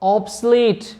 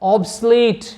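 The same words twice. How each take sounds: Both takes have the same delivery.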